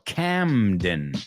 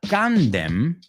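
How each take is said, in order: First: The first syllable ends in an m sound. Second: The first syllable ends in an n sound. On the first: The speaker calls it right. "So cam, like camera" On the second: The speaker calls it wrong. "it's not Camden"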